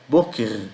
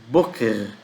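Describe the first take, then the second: The two takes are said the same way.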